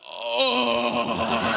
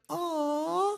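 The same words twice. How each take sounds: First: It is said in a coarse, rough voice. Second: It is said in a soft, clear voice.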